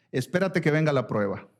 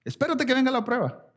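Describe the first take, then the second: First: Said in the usual way. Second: Espérate lifted high and hit hard; much higher, emphatic Espérate; stress on Espérate. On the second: Shown as a demonstration. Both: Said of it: "repeated with emphasis".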